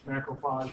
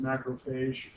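First: "macrophage" ending in an open "ah" sound, like "fahzh"; variant pronunciation. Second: "macrophage" ending in a long "ay" sound, like "fayzh"; variant pronunciation. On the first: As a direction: say "macrophage" with the last syllable as "FAHZH". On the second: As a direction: say "macrophage" with the last syllable as "FAYZH". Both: Shown as a demonstration. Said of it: "I've also heard that pronounced".

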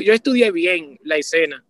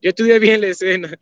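First: "yo" punched, rest falling; stress on yo. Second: "estudié" hit harder and louder; stress on estudié. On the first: Repeating his point, stressing "yo". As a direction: lean on the word "yo" first. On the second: Insisting to his cohost, louder on "estudié". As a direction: repeat it, landing on "estudié". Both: Shown as a demonstration.

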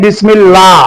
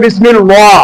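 First: "বিসমিল্লাহ" with a light, thin "লা"; thin lam. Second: "বিসমিল ওয়া" with a heavy, rounded "ওয়া" sound; thick lam. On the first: Teacher shows students the rule, "বিসমিল্লাহ" with a thin lam. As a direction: keep the doubled l in "বিসমিল্লাহ" thin, not heavy. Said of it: "তার মানে পাতলা". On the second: Teacher shows students the wrong thick reading, "ওয়া" said heavy. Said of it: "ওয়া এটা হইলো মোটা". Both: Shown as a demonstration.

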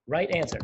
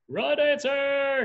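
First: Said in the usual way. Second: High, loud, drawn-out call; sustained demonstration shout; yelled broadcast. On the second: Shown as a demonstration. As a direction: broadcast it in a stretched high yell. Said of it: "You're gonna yell it out".

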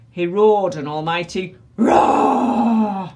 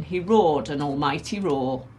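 First: Loud, long roar on ROAR; acted roar. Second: Said in the usual way. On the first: A narrator's reading. Narrator gives the Tyrannosaurus's almighty roar, roaring the last word. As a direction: explode into a drawn-out ROAR.

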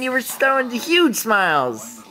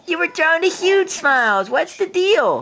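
First: Said in the usual way. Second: Put-on baby talk. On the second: Dad teasing baby.

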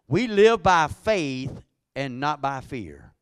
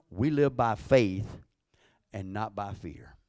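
First: Slow, louder second take; emphatic repeat. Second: Said in the usual way. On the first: Shown as a demonstration. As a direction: hammer the repeat home. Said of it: "repeats line louder". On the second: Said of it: "first take".

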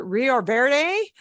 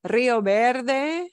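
First: Put-on English-accented "Rio Verde" with a hard V; anglicized pronunciation. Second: "Verde" with the V said as a soft B; Spanish "Rio Verde", V softened to B. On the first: Teacher imitating how locals call it, English accent. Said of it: "Or like they call, like to call it". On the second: Shown as a demonstration. Teacher modelling a place name for class, soft-B V. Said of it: "The V is gonna sound like a soft B".

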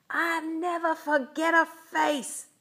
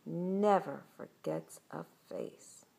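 First: High, loud vengeful yell; menacing shout. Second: Slow, measured storyteller's warning; ominous narration. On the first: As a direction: holler a threat at escaping kids. Villain shouts after fleeing kids. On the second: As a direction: draw out the closing line for suspense. Narrator's ominous closing line. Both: A narrator's reading.

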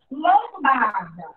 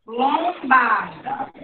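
First: Lombarda said slowly; slow word reading. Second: Lombarda drawn out even more slowly; even slower reading. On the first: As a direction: read Lombarda slowly for the class. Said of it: "Próxima palavra". (Lombarda lida devagar) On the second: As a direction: stretch Lombarda so they hear the syllables. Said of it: "Ó, só observar". (Lombarda bem mais devagar) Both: Shown as a demonstration.

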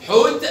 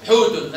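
First: Slow حوت stopped on t; sukun ending. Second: Slow حوت as "hootun"; damma tanween. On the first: Teacher quizzes pupil, حوت with bare t. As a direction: say حوت with no final vowel. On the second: Teacher quizzes pupil, حوت ending in -un. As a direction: add -un to حوت. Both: Shown as a demonstration. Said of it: "اتنطق التاء مرتين".

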